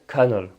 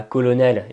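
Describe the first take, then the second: First: "colonel" said as English KER-nel, two syllables; English pronunciation. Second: "colonel" read as a French word, all three syllables. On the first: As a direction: say "colonel" exactly like English "kernel". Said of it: "en fait, ça se prononce colonel". (« colonel » prononcé à l'anglaise, comme « kernel ») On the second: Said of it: "on lira colonel". (« colonel » lu à la française) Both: Shown as a demonstration.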